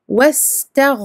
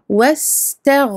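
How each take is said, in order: No difference in how they are said.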